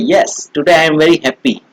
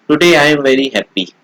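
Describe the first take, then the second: First: It is said with lively, happy expression. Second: It is said plainly, without expression.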